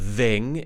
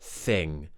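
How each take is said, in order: First: The first sound is voiced, using the vocal cords. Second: The first sound is voiceless, with only air. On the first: The speaker calls it wrong. "It's not thing" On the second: The speaker calls it right. "It's the unvoiced T H, so we're not using our vocal cords"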